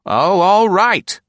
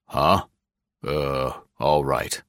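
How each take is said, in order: First: High, loud and slow, giving in with a pout; high put-on woman's voice, sulking; sulky. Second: A lower, gruffer man's voice, lightly done; lightly voiced gruff boss; gruff official Gregg. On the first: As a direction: give in grudgingly. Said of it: "Nora said sulkily". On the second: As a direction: read him as a grumbling bureau chief. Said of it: "thrown off his stride for a moment". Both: A narrator's reading.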